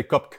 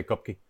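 First: "kopke" said as CUPK, final vowel swallowed; Portuguese pronunciation. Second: "kopke" said as CUP-kee; American pronunciation. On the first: Guest showing how Portugal says it, clipped CUPK. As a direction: say "kopke" with the ending nearly dropped. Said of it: "in Portugal, they say". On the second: Guest showing how the States say it, CUP-kee. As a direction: say "kopke" with a full kee ending. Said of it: "in the States, we just say". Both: Shown as a demonstration.

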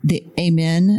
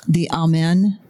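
First: "Amen" with a long AY first; Amen as ay-MEN. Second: "Amen" with an open AH first; Amen as ah-MEN. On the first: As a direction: say "Amen" starting like the letter A. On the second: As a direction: say "Amen" starting ah, as in father. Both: Shown as a demonstration. Says the word two ways.

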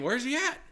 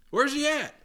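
First: Higher, rising, teasing question; mock-puzzled, higher and lifting at the end; mocking taunt. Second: Higher, falling, pointed taunt; sarcastic mock search, higher and dropping. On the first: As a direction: taunt the idol's prophets with a sly rising ask. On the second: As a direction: press the jab home, landing on at. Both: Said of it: "Elijah mocked them and said".

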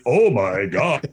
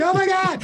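First: Slow, drawn-out put-on broadcaster; mock polished exclaim; affected announcer exclamation. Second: Much higher, genuine shock; real gasping surprise; honest startled exclaim; natural surprise. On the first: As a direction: fake radio-voice surprise. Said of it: "your reaction wouldn't be". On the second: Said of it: "you'd be". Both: Shown as a demonstration.

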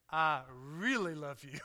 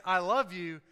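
First: "really" stretched, lower and slower; stress on really. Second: Said in the usual way. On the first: Shown as a demonstration. Pastor contrasting with plain, "really" drawn out slow. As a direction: linger on "really" so it means more. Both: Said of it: "There's a difference between saying".

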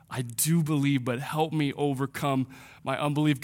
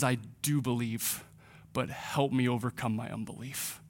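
First: Said in the usual way. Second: Pleading father. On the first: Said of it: "you ever felt that?". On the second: Retold or imitated. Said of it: "the boy's father's response".

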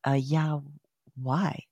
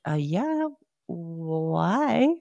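First: Said in the usual way. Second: Imagined baffled reply, stretched rising why; incredulous. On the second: Retold or imitated. Answering the clinic's surprise invitation, incredulous. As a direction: play up the puzzled suspicion. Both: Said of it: "I didn't say that to her".

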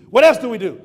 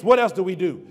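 First: Louder repeat. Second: Said in the usual way. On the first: Shown as a demonstration. Preacher repeating his question louder to the church. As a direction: push the question out to the congregation.

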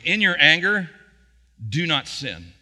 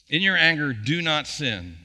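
First: In your anger punched high and loud, do not sin level; forceful scripture quote. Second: "In your anger" raised and loud, "do not sin" slowed right down. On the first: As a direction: hit "In your anger" hard, then settle. Pastor quoting scripture with force. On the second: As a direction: linger on "do not sin" deliberately. Repeating the verse slower. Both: Shown as a demonstration.

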